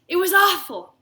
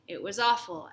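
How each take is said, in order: First: It is said in a thrilled, excited voice. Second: It is said in a glum, flat voice. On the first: The speaker treats the bad news as great news. "say it like you just won the lottery, like this" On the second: The speaker honestly feels bad about the visit. "Be honest"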